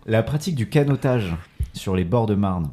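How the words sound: It is read with a neutral French accent. "sans l'accent"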